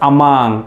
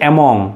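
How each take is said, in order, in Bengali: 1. দ্বিতীয় স্বরধ্বনিটি 'uh'-এর মতো শোনায়। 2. দ্বিতীয় স্বরধ্বনিটি 'o'-এর মতো শোনায়। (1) "ইটস" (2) "আমরা অনেকেই ছোটোবেলায় শিখেছি"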